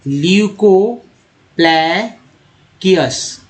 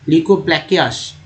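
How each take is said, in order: First: ल्यूकोप्लैकियस very slowly, broken into ल्यू-को-प्लै-कियस; syllable-by-syllable pronunciation. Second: Said in the usual way. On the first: Shown as a demonstration. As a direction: stretch each part of ल्यूकोप्लैकियस with pauses between. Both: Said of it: "कैसे पढ़ा जाता है".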